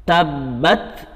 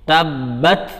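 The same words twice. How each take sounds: No difference in how they are said.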